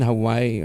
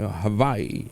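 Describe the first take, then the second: First: The middle consonant is a plain w sound. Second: The middle consonant is a v sound. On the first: The speaker calls it wrong. "Hindi pala yun Hawaii" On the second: The speaker calls it right. "yung W uh, pronounced as V"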